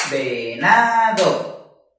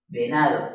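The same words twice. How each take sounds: First: "Venado" very drawn out, ve, na, do; three voice beats. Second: Said in the usual way. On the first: Shown as a demonstration. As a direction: stretch each syllable of "Venado" into its own beat. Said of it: "Lo dividimos en tres golpes de voz". ("Venado" muy lento, en tres golpes de voz) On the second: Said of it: "debes pronunciar la palabra completa".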